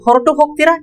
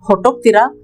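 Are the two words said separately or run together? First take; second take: separately; run together. First: The two words are said fully and separately. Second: The two words are run together into one.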